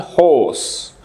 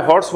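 First: হোস with a long o and no r; correct English pronunciation. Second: হর্স said quickly with a Bangla r sound; হর্স as Bangla speakers say it; Bangla-style pronunciation. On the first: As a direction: draw out the o in হোস, r left silent. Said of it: "উচ্চারণটা হচ্ছে হোস". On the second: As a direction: say হর্স the local Bangla way, r pronounced. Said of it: "এটা হর্স নয়". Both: Shown as a demonstration.

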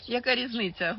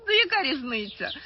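First: Said in the usual way. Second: Яка різниця pushed out louder with a falling tune; the first, louder яка різниця; louder emphatic. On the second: Real, not acted. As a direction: stress яка, let it fall hard.

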